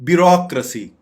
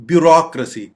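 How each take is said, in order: No difference in how they are said.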